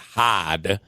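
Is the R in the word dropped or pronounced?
dropped. The R sound is dropped. "in New England ... they'll pronounce it hard"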